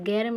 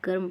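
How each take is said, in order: First: The vowel sounds like 'eh'. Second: The vowel sounds like 'uh'. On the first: The speaker calls it wrong. "गैरम नहीं पढ़े" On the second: The speaker calls it right. "इसको हम गर्म पढ़ेंगे"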